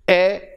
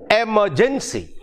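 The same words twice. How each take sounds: First: "emergency" in four beats, e, mer, gen, cy, with gaps; syllable by syllable. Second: Said in the usual way. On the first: Shown as a demonstration. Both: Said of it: "four syllables".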